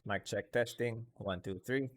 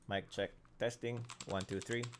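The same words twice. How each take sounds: First: Background noises are barely audible behind the voice. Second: Background noises are clearly audible behind the voice. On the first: "with noise cancellation" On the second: "this is without the noise removal ng NVIDIA Broadcast"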